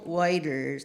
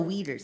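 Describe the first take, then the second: First: The surname is said like 'Whiters'. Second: The surname is said like 'Weeders'. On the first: The speaker calls it wrong. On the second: The speaker calls it right. "That's how you say it"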